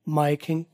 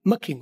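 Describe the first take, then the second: First: 'My' is slightly reduced, not fully drawn out. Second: 'My' is cut to a short 'ma' sound. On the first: This form is used less often. "उससे कम बोला जाता है माई किंग" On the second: This is the form used most often. "सबसे ज्यादा मखिंग, मखिंग, और वो भी short मखिंग"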